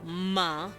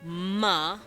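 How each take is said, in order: No difference in how they are said.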